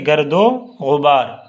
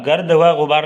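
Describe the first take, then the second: First: The 'and' joins the first word as 'o'. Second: The 'and' is a separate syllable, 'va'. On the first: The speaker calls it right. "बल्कि गर्दो गुबार" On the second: The speaker calls it wrong. "नहीं पढ़िएगा"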